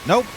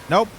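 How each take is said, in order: The two takes are said the same way.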